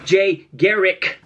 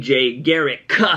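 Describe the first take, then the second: First: The name is said carefully, final K clearly sounded. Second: The name is said quickly, final K barely heard. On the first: "You guys always want the pronunciation on the damn K" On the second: "I just say Garrick really quickly"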